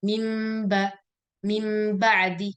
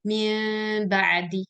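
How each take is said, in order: First: "mim ba'di" with lips pressed fully shut on a long hummed m; Syamiyah iqlab. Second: "min ba'di" with a small gap between the lips on a long hummed nasal; Misriyah iqlab. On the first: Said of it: "itu bibir harus ditutup rapat". ("mim ba'di" dengan bibir ditutup rapat, dengung panjang) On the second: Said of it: "Kalau Misriyah". ("min ba'di" dengan bibir diberi jarak kecil, dengung panjang) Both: Shown as a demonstration.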